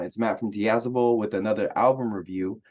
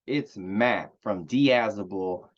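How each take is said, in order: First: Said in the usual way. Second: Slow mock Texas accent, drawn out. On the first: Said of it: "I wanted to switch it up". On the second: Introducing himself on his review channel in mock Texas accent. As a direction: stretch "Diazable" like a put-on Texan. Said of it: "I'm doing a Texas accent".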